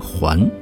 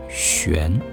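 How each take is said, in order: First: The word is pronounced huan. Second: The word is pronounced xuan. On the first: This is the modern reading. "这个还" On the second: It describes birds circling in the air. "古诗词当中应该读悬"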